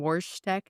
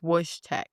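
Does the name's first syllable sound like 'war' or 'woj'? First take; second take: war; woj. First: The first syllable sounds like 'war'. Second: The first syllable sounds like 'woj'. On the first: The speaker calls it wrong. "I was mispronouncing the Syrian bear's name. I kept saying" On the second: The speaker calls it right. "His name is Wojtek. So, not war, Woj"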